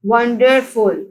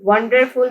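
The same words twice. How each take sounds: First: wonderful slowly split as won-der-ful; syllable by syllable. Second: Said in the usual way. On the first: Shown as a demonstration. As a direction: sound out wonderful in three beats. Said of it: "wonderful के three syllables हैं". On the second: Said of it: "three syllables हैं".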